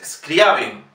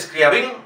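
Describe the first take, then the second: First: Scriabin slowly as "SKRIA-bin"; corrected stress. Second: Scriabin as "skria-BIN", stress on the end; wrong final stress. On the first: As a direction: stress the A of Scriabin, drop the ending. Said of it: "es Scriabin". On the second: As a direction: mistaken radio version of Scriabin. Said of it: "dicen muchas veces Scriabin". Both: Shown as a demonstration.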